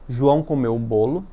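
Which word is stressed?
João. The emphasis falls on the word João. It answers who ate the cake. "colocando a ênfase na palavra João"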